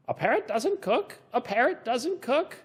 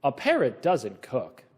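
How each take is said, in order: First: Mock parrot echo. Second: Said in the usual way. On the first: Echoed as question.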